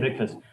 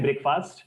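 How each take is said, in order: First: The word is said quickly. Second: The word is said slowly. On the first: The speaker calls it right. "थोड़ा speed में बोलना है" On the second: The speaker calls it wrong. "don't say breakfast"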